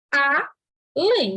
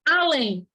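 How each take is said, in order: First: "a, lém" as two separate beats with a pause; split into syllables. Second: Said in the usual way. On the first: Shown as a demonstration. Teacher splitting além for the class, syllable by syllable. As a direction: break "além" apart, a then lém. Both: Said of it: "se separa".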